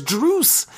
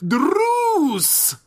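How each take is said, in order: First: Druce with a trilled R; rolled r. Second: Druce! with a long rolled R, high. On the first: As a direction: roll the R in Druce. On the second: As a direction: trill the R: Druuce!. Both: Shown as a demonstration. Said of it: "I like to trill my R's".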